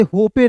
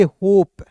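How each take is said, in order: First: होपे with final E sounded, "ho-pay"; होपे read letter for letter, ending in "ay"; mistaken pronunciation. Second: होप as one syllable, "hope"; correct silent-E pronunciation. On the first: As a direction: say होपे in two syllables. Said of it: "नहीं पढ़ेंगे". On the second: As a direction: end होप cleanly on the P. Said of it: "इसे पढ़ेंगे". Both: Shown as a demonstration.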